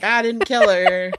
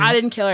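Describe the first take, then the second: First: Drawn-out, mock-carefree denial; slow gloating sing-out, as if skipping home; skipping-away glee. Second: Mildly heated, acted-out protest; imitated indignant denial; pissed-off denial. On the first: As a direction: playfully crow it on your way out. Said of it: "I'm skipping out all the way". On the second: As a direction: deny it like you've been pushed too far. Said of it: "He gets fucking pissed".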